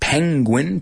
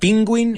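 First: The first vowel sounds like the vowel in 'pen'. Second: The first vowel sounds like the vowel in 'pin'. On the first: The speaker calls it right. "it's penguin" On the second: The speaker calls it wrong. "it's not pinguin"

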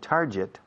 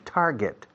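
First: The second syllable does not sound like get. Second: The second syllable sounds like the word get. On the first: The speaker calls it wrong. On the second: The speaker calls it right. "El verbo to get, simplemente get, no? Pues puntar delante, target"

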